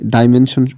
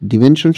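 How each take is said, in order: First: The first syllable is said like 'die'. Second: The first syllable is said like 'dee'. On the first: The speaker calls it wrong. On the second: The speaker calls it right.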